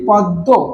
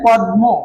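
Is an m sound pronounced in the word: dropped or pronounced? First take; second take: dropped; pronounced. First: The m sound is dropped from the middle. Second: The m sound is clearly pronounced in the middle. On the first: The speaker calls it right. "উচ্চারণের ক্ষেত্রে আমরা বলে ফেলি পদ্ম" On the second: The speaker calls it wrong. "But আমরা বলি না পদ্ম, আমরা এমনটা উচ্চারণ করতে পারি না।"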